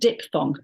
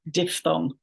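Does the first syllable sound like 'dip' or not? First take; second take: dip; not dip. First: The first syllable sounds like the word dip. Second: The first syllable does not sound like dip. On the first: The speaker calls it wrong. "Not diphthong. It's not something that you dip your thongs into" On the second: The speaker calls it right. "giving us diphthong"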